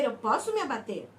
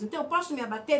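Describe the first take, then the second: First: "abater" falling low, settled; firm answer. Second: "posso" lifted into a rising question; rhetorical question. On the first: Pastor answers her own question, firm and settled. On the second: Pastor poses the congregation's doubt, asking. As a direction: ask it as if doubting. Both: Shown as a demonstration.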